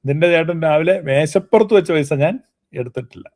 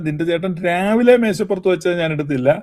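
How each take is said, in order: First: The emphasis falls on 'on the table'. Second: The emphasis falls on 'in the morning'. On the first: Money left in another place may have been taken. "മേശപ്പുറത്തുനിന്നുള്ളതിനെ ഊന്നൽ കൊടുക്കുകയാണ്" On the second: Money left at another time may have been taken. "രാവിലെ എന്നുള്ളതിന് ഊന്നൽ കൊടുത്താൽ"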